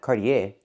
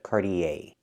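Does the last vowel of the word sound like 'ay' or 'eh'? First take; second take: eh; ay. First: The last vowel is a short 'eh' sound. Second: The last vowel is a long 'ay' sound. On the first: The speaker calls it wrong. "Not eh, not Cartier" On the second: The speaker calls it right. "The last vowel is the long A sound like day and say"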